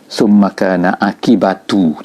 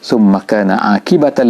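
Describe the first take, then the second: First: The word 'akibat' ends with a u vowel. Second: The word 'akibat' ends with an a vowel. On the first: This is the other accepted reading. "dibaca dengan summa kana akibatu tu, eh, bukan ta" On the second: This is the reading commonly used. "Kita baca ta"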